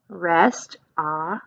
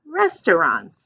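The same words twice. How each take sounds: First: Slowly drawn out "Restaurants." with a questioning rise; sounding out a word. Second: Said in the usual way. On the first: Shown as a demonstration. Teacher slowly sounds out a word for kids. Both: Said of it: "what is this word?".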